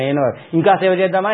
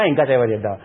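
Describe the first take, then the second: First: Mock-eager, ridiculing the eager helper; sarcastic imitation of a do-gooder, full voice; mocking quote. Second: Mocking echo. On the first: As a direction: toss off ఇంకా సేవ చేద్దామా as a scornful echo of their zeal. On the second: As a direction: let the mock fade into a dismissive mutter. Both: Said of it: "అదే దరిద్ర బుద్ధి".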